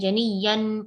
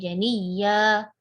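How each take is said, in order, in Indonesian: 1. Kata itu diakhiri dengan bunyi n. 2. Kata itu diakhiri dengan bunyi h. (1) "enggak kita baca janiyan" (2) "tapi janiyah"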